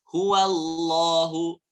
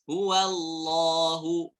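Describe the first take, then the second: Both takes have the same delivery.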